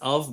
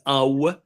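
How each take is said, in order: First: The syllable ends with a 'v' sound. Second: The syllable ends with an 'oo' sound. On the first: This is how others pronounce it. "you pronounce it as av" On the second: This is how the speaker's community pronounces it. "but we pronounce it as au"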